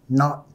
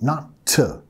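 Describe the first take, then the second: First: The word ends on the t with no vowel. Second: The final t is followed by an extra vowel. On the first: The speaker calls it right. "más not. Deja tu lengua arriba" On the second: The speaker calls it wrong. "No tenemos que decir not to"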